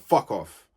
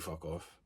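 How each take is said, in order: First: It is said in a harsh, angry tone. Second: It is said in a calm, unangry tone. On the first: The speaker is genuinely annoyed with the listener. "the tone is different" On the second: The speaker is not really annoyed with the listener. "even the tone is like, I'm not mad at you"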